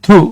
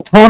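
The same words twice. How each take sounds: First: "through" said as "thru", ending in an oo sound; correct pronunciation. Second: "through" said as "thro", ending in an o sound; wrong pronunciation. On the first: Teacher modelling the word for students, "through" pronounced as "thru". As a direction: say "through" with a short, clean oo vowel. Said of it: "উচ্চারণ হচ্ছে". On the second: Teacher showing students how not to say it, "through" mispronounced as "thro". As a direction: say "through" with an o vowel, like "throw". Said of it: "through না কিন্তু উচ্চারণ হচ্ছে". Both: Shown as a demonstration.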